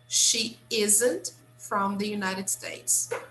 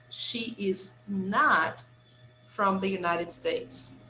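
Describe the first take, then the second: First: The words is and not are contracted together. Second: The words is and not are said separately. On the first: It is ordinary everyday speech. "in common spoken English, we contract" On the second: The speaker wants to emphasize the negative. "if I want to emphasize, I can separate and say like this"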